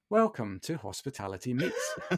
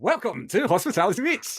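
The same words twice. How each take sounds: First: It is said in a plain everyday voice. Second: It is said in a put-on radio voice. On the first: The speaker calls it wrong. "you'll have me going" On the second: The speaker calls it right. "I've got a radio voice now that I put on"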